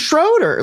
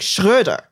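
First: The name has a plain American vowel. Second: The name has the German rounded vowel. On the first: "which is how you would pronounce it if you're just a normal American" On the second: "it's pronounced like Schröder"

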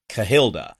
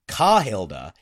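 First: The first syllable is short and light. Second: The first syllable is hit hard and drawn out. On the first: The speaker calls it right. "It would be Cahilda" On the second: The speaker calls it wrong. "they've been hitting the ka way harder than I would have expected"

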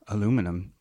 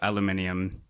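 First: The word is said the American way. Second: The word is said the British way.

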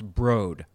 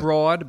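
First: The word is said with a different vowel. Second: The word is said the way it is spelled. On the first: "but pronounced Broad" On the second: "spelled Broad"

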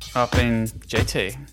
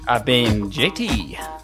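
First: It is said flatly, without enthusiasm. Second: It is said with more enthusiasm.

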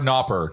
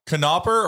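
First: The initial K is silent before the n. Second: The initial K is pronounced before the n. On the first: The speaker calls it wrong. "or not pronounce the K?" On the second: The speaker calls it right. "Do we pronounce the K"

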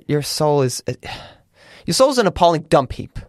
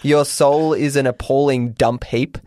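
First: The line is read in a dramatic, cutting manner. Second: The line is read in a plain manner.

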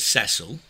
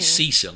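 First: The name is said with a British pronunciation. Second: The name is said with an American pronunciation. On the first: "instead of" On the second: "as the Americans say"

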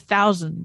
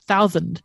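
First: The s-sound is clear, without a lisp. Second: The s-sound is lisped, like a th. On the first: The speaker calls it right. "she couldn't say thousand" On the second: The speaker calls it wrong. "it was thousand"

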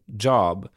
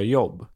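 First: The word begins with a 'dj' sound. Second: The word begins with a 'y' sound. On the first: The speaker calls it right. "j-ljud på engelska som job" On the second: The speaker calls it wrong. "då säger många svenskar jobb"

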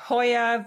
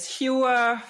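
First: The name is said with a German pronunciation. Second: The name is said with a Canadian pronunciation. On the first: "the German name is" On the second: "The Canadian name is"

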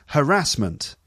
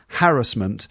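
First: The stress falls on the second syllable. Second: The stress falls on the first syllable. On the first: This is the American pronunciation. "And in the US, it's harassment" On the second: This is the traditional British pronunciation. "In the UK, it should be apparently pronounced with emphasis on the first syllable"

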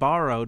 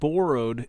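First: The word has an American-style vowel. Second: The word has a Canadian-style vowel. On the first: This is how Americans say it. "instead of borrowed" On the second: The speaker is not from America. "you said borrowed instead of"

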